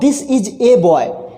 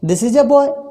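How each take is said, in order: First: The article is a strong, stressed 'ay'. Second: The article is a weak, unstressed 'uh'. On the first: It points out that this is one boy. "Strong form ... जोर देते हुए बता रहे हैं" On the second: It is a plain, neutral statement. "मैंने यहाँ पे ए को क्या पढ़ा? अ पढ़ा। उस पर मैंने जोर नहीं दिया।"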